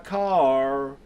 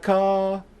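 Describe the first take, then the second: First: The final R sound is clearly pronounced. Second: The final R sound is left off. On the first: The speaker calls it wrong. "it's not baby you can drive my car. That would just sound weird" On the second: The speaker calls it right. "they're just leaving off the R"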